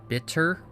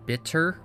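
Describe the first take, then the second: First: The middle T is pronounced crisply and fully. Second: The middle T is pronounced crisply and fully.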